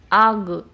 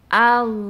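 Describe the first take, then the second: First: The final sound ends with a bouncing release. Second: The final sound flows on without a break. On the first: The speaker calls it wrong. "Jangan pula di kol-kola, jangan ag" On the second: The speaker calls it right. "tapi al"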